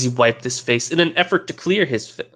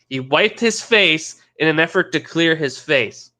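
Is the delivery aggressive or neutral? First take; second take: neutral; aggressive. First: It is read in a plain, neutral way. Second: It is read in a very aggressive way.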